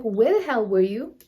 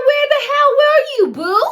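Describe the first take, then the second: First: Said in the usual way. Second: Very high, loud mock-furious demand; exaggerated yell. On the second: Girlfriend interrogates boyfriend, hammed-up furious yell. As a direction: blow it up into an over-the-top shriek. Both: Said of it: "I didn't say it like that".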